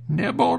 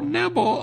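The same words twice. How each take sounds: First: High rising witch call on "Nibble"; a witch's high "Nibble" that rises at the end. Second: Very high falling witch cry on "nibble"; a witch's "nibble" pitched even higher, falling at the end. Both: A narrator's reading. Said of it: "a shrill voice cry out".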